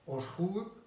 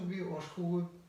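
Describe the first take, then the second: First: The ending is pronounced as a full separate syllable. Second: The middle vowel is very short and reduced. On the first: "«гуй» – это бывшее слово «увы»" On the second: "краткий звук «э» или «ы»"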